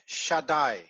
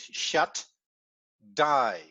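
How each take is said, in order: First: It is said at normal speed, flowing together. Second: It is said very slowly, syllables split apart.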